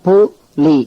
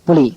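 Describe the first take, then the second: First: The two syllables are said separately with a gap. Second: The two syllables are joined quickly into one word. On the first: "தனித்தனியா உச்சரிச்சு" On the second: "வேகமா படிச்சா"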